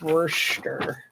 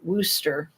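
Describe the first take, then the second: First: The name is sounded out following every written letter. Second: The name is said in its short, contracted form. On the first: This is only how the name is written. "It's spelled like" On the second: This is how people actually say the name. "is how you say it"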